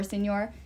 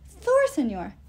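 First: Said in the usual way. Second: "Thor, senor" said higher and louder to land the rhyme; rhyme stressed. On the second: Shown as a demonstration. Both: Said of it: "That rhymes".

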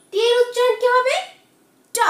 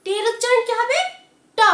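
No difference in how they are said.

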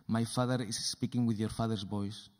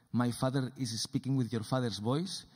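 No difference in how they are said.

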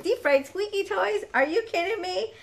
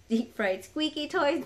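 First: Delighted exclaim. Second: Said in the usual way. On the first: Real, not acted. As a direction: repeat it higher and louder, thrilled. Repeats name in delight.

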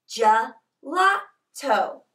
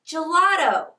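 First: "gelato" slowly, split into three separate syllables. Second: Said in the usual way. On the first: Shown as a demonstration. Teacher teaching Italian word "gelato" to children, slowly syllable by syllable. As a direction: say "gelato" in three slow beats with gaps.

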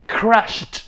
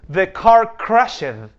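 First: "crashed" as one syllable, ending in a clipped t; correct pronunciation. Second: "crashed" said slow with an extra syllable, crash-ed; wrong pronunciation. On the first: Teacher giving students the right sound after the wrong one. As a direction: say "crashed" in one beat, no vowel before the t. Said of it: "no, es". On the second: Teacher showing students the wrong way to say it. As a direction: pronounce "crashed" wrongly as two syllables, cra-shed. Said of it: "la pronunciación de la E D no es crashed". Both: Shown as a demonstration.

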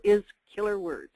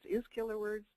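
First: Said in the usual way. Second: Quietly questioning own grammar; soft, doubtful rising tone; mock puzzled question. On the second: Shown as a demonstration. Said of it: "That doesn't sound like good English".

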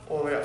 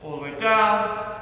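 First: Low and softer, "up" short; dropping instruction. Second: "down" held long and level above the rest. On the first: Coach demonstrating the rise from a squat, "up" low and soft. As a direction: fall away to a low, quick "up". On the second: Coach demonstrating a squat's descent, "down" held long. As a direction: sustain "down" for the descent. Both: Shown as a demonstration. Squat demo, voice follows movement.

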